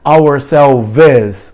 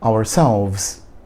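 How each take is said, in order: First: An extra vowel is sounded between V and S. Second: It ends quickly in V and S, no vowel. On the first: The speaker calls it wrong. "Não tem o E. Não é ourselves" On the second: The speaker calls it right. "Pronuncia bem rápido, um V e um S"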